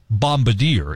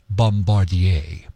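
First: It is said with an American English accent. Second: It is said with a French-Canadian accent.

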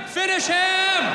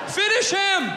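Both takes have the same delivery.

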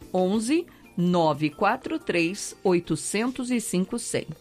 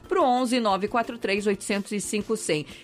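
First: The number is said slowly with pauses. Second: The number is said quickly without pauses.

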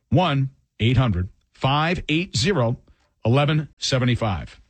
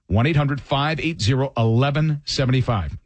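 First: It is said slowly. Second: It is said at normal speed.

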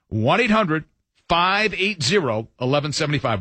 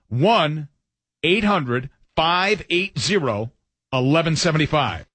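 First: The number is said at normal speed. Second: The number is said slowly.

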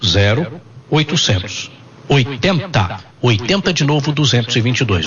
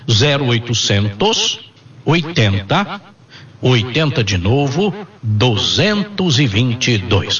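First: The number is said at normal speed. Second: The number is said slowly.

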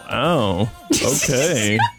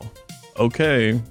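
First: It sounds flirty. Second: It sounds disappointed.

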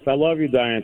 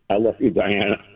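First: It is said at a normal, quicker pace. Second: It is said slowly and gently.

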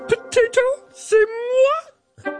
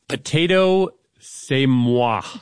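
First: It is said in a Miss Piggy voice. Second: It is said in his normal voice.

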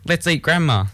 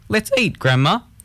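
First: There is no pause before Grandma. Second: There is a pause before Grandma.

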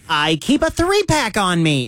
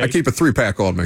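First: It is said in a SpongeBob cartoon voice. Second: It is said in his plain normal voice.

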